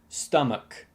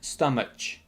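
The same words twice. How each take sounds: First: The word ends with a k sound. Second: The word ends with a ch sound. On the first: The speaker calls it right. "it's actually pronounced stomach" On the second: The speaker calls it wrong. "Many people often pronounce it like stomach, like watch or touch"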